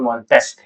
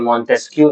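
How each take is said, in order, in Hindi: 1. इस नाम का अंत 'k' ध्वनि से होता है। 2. इस नाम का अंत 'yoo' ध्वनि से होता है। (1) "ये मॉन्टेस्क है" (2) "ये मॉन्टेस्क्यू नहीं है"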